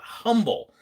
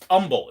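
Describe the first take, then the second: First: It is said with a California-style pronunciation. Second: It is said with the local Texas pronunciation. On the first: The speaker calls it wrong. "It's not humble. The California me wants to say humble" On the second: The speaker calls it right. "if you say it right, in Texas, it's humble"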